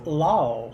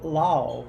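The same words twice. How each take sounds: First: The vowel is stretched with a glide. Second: The same.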